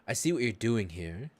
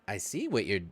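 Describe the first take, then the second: First: It is said in a non-gnome character voice. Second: It is said in a gnome voice.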